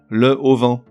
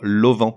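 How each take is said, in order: First: The full article is said before the noun. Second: The article is elided and linked to the noun. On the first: The speaker calls it wrong. "on lui invente un H aspiré, qui n'existe pas" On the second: The speaker calls it right. "il faut dire l'auvent"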